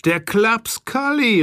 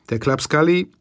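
First: „Der Klaps Kalli“ hoch und gedehnt ausgerufen, plötzliche Erkenntnis. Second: Said in the usual way. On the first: A narrator's reading. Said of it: "rief ich". (Erzähler ruft den Namen des Täters aus, hoch und gedehnt) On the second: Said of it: "fing an rumzuflennen".

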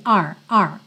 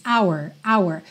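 First: OUR reduced to "ar", transcript R; like letter R. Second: OUR in two parts, "ow-er"; fully drawn our. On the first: Teacher shows the in-sentence form, reduced to "ar". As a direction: say R, the short mid-sentence OUR. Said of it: "parece o nome da letra R". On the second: Teacher shows the isolated word, fully articulated. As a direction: shape OUR fully, as when said alone. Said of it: "pode desenhar um pouquinho mais". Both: Shown as a demonstration.

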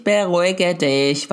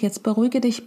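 First: Slow, drawn-out BERUHIGE DICH; self-calming. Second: Said in the usual way. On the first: Retold or imitated. Mother telling herself to calm down, slow and deliberate. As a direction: stretch "beruhige dich" out to talk yourself down. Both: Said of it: "denke ich".

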